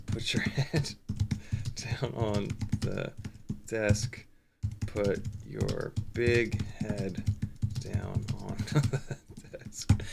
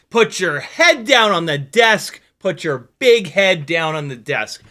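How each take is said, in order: First: Soft, slow, much lower, breaking into laughs; laughing quiet quote. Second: Stand-up quote shouted. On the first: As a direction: mutter it while cracking up. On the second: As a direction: bellow it like an angry comic. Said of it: "that is a quote". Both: Retold or imitated.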